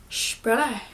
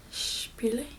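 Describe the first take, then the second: First: "Spoolie" said as SHPIL-uh; "Spoolie" with a sh at the start and an uh ending; alternative pronunciation. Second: "Spoolie" said as SHPIL-ee, rising like a question; "Spoolie" softer, ending on a questioning ee; unsure pronunciation. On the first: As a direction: end "Spoolie" on a loose uh instead of ee. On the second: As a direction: try "Spoolie" with an ee ending, voice lifting. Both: Real, not acted. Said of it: "However you do that".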